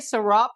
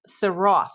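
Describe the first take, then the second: First: The name ends with a P sound. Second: The name ends with an F sound. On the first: The speaker calls it wrong. "I still say Sarap" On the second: The speaker calls it right. "sounds more like an F as in Frank rather than a P"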